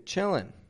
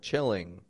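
First: The word ends with a plain n sound. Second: The word ends with a full ng sound.

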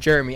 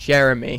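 First: The name is said with two syllables. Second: The name is said with three syllables. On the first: The speaker calls it wrong. "not two" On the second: The speaker calls it right. "So it's three syllables"

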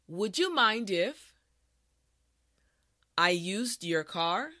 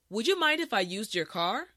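First: The sentence is said at a slow pace. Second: The sentence is said at a natural pace. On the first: "this time repeat after me" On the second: "the last time at a regular pace"

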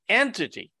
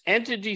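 First: The word is emphasized and set off by a pause. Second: The word is read plainly, without special emphasis. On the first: The speaker calls it right. "with different emphasis" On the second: The speaker calls it wrong. "I have to read that with different emphasis"

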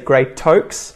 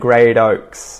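First: The T is a clear, crisp T sound. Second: The T is a soft flap like D. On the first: The speaker calls it wrong. "I don't say great oaks" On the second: The speaker calls it right. "I say little and great oaks ... the T flap at work there"

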